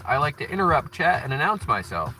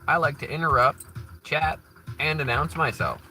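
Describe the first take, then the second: First: Interrupt chat is said together without a pause. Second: There is a pause after interrupt and chat.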